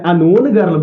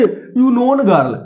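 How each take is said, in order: First: The phrase begins with an 'uh' sound. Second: The phrase begins with a 'yoo' sound. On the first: The speaker calls it right. "अनोन girl बोलते हैं" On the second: The speaker calls it wrong. "कभी बोलते हैं"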